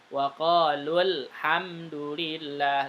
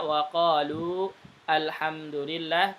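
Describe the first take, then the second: First: The 'lu' vowel is short, linked into 'hamdu'. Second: The 'lu' vowel is long before the next word. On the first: "ketika disambung"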